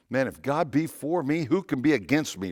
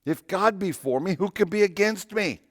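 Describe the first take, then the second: First: Said in the usual way. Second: Pitched much higher, proclaiming; raised in triumph. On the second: Real, not acted. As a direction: lift it up like a victory cry. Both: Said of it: "Romans, right?".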